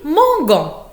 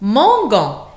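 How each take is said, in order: First: The g is hard, as in go. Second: The same.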